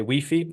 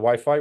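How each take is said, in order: First: It is said the European way, like wee-fee. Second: It is said the usual British way, like why-fie.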